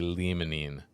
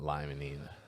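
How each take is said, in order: First: The first vowel is short, as in 'limb'. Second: The first vowel is long, as in 'lime'. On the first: The speaker calls it right. "that would be limonene" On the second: The speaker calls it wrong. "not limonene"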